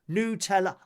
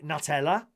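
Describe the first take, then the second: First: It is said the original, native way. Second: It is said the common English way. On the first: The speaker calls it right. "But it's actually Nutella" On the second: The speaker calls it wrong. "Most people would say Nutella"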